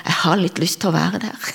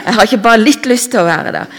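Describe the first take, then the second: First: Said in the usual way. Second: "litt" punched louder and higher; loud, hurried insistence on "ikke bare litt"; emphatic correction. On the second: Real, not acted. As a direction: hit "litt" hard, in a quicker, raised voice. Emphatic correction of first take.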